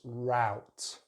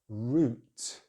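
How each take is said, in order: First: It has an ow diphthong vowel. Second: It has a long rounded oo vowel. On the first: "American English ... They use the ow sound" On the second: "British English use the long vowel sound oo"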